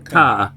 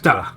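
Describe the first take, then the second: First: The first vowel is clearly pronounced. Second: The first vowel is nearly dropped.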